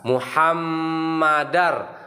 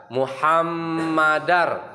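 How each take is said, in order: The two takes are said the same way.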